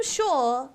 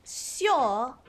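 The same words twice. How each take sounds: First: "sure" with a simple sh onset; "sure" starting on a plain sh; first attempt at "sure". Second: "sure" as syor, with a y glide; "sure" lower, said like s-yor; proper posh pronunciation. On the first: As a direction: say "sure" as shor, no y glide. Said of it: "or rather". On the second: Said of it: "is the proper way". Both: Shown as a demonstration.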